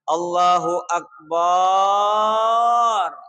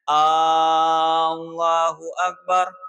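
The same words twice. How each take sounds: First: The vowel after b in Akbar is drawn out. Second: The opening A sound is drawn out long. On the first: It means God is like a drum. "tidak boleh memanjangkan banyo" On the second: It asks whether God is the greatest. "tidak boleh memanjangkan lapas hamzahnya"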